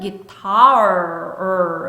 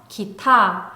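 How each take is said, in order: First: The word ends with a clear R sound. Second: The word ends without any R sound. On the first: The speaker calls it right. "혀가 목구멍 쪽으로 웅크리면서 입은 동그랗게 내밀어주면서 guitar까지 소리 내주세요" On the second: The speaker calls it wrong. "기타 하면 또 R 소리 또 빠졌다"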